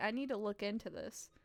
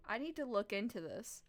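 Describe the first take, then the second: No difference in how they are said.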